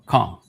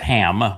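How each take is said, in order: First: The name begins with a throaty ch sound. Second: The name begins with a plain h sound. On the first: "but it's a C H ... H A M" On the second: "everybody pronounces it as"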